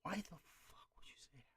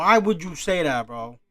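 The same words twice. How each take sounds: First: Voiceless whisper of disbelief; hushed, exasperated question. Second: Loud, exasperated disbelief; exasperated outcry. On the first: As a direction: whisper it, barely any sound. Exasperated reaction, whispered then voiced. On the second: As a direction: burst out with the question. Same question again, out loud. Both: Real, not acted.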